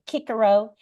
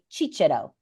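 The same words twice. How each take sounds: First: Each C is pronounced as a K sound. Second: Each C is pronounced as a CH sound. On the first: This is the ancient classical pronunciation. "in ancient uh, Latin, we think they used a hard C" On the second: This is the Italian or church pronunciation. "the Italians would say Cicero, right? So that's soft C"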